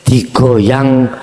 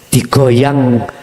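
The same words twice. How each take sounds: No difference in how they are said.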